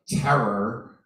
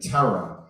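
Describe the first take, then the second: First: The final R is pronounced. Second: The final R is dropped, New York style.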